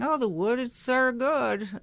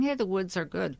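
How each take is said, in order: First: It is said in a shaky, quivering voice. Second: It is said in a calm, comforting voice.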